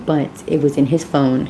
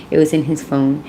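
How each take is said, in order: First: Said in the usual way. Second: Insistent stress on was. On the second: Real, not acted. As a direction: hit the word was, it was in his phone. Repeats after "Hello." for emphasis.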